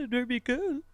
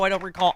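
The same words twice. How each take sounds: First: The voice is pitched very high. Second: The voice is lower, calm and formal. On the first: He is nervously denying something. "his voice goes up like three octaves" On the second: He is giving a careful legal denial. "he goes into the lawyerly"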